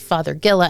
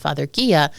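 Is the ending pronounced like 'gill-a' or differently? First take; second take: gill-a; differently. First: The ending sounds like the surname 'Fothergill' plus 'a'. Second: The ending does not sound like 'gill' plus 'a'. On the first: The speaker calls it right. "the reason that it is Father Gilla" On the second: The speaker calls it wrong. "and not Father Gia"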